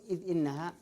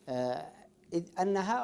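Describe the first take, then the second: First: The second word begins with an 'i' vowel. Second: The second word begins with an 'a' vowel. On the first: The speaker calls it right. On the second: The speaker calls it wrong.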